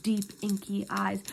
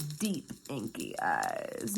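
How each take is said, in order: First: Said in the usual way. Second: Very low, slow, dragged-out mocking read; mock swooning. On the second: Reader mocking a hater's admiring description, low mocking drawl. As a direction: drop low and drawl "deep, inky eyes".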